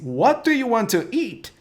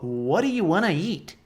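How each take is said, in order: First: Want to is said in full, clearly separated. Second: Want to is run together quickly as wanna. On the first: "Se ele falasse assim" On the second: "Mas você falou diferente"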